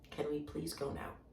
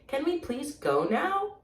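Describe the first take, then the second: First: It is said flat like a statement, falling. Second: It is said as a question, rising.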